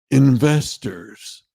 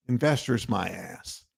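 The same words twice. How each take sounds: First: "investors." drawn out very slowly and a little louder, as the smug guy's punchline; mock pitchman. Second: "investors" said in his own voice, dropped much softer and flat with contempt; scornful retort. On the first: Host ending the smug investor impression, "investors." slow and drawn out. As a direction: stretch "investors." out slow like you're selling it. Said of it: "the goddamn guy who talks like this and says". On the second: Real, not acted. Host dismissing the investor talk, "investors" soft and scornful. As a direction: mutter "investors my ass" low and dismissive.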